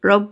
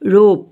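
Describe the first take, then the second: First: The vowel is short and clipped. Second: The vowel is drawn out long. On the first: The speaker calls it wrong. "ৰপ বুলি নকওঁ আমি" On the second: The speaker calls it right. "অকণমান long চাউণ্ডেৰে।"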